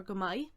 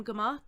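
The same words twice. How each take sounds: First: "maith" said like "my"; "go maith" as "guh my"; variant pronunciation. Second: Said in the usual way. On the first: Shown as a demonstration. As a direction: say "maith" with an open "eye" ending, no h. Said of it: "as you might hear it pronounced".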